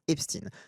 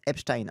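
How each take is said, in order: First: The name is pronounced the French way. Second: The name is pronounced the German way. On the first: "En français, il devrait en théorie se prononcer formellement Epstein" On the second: "se prononce Epstein en allemand"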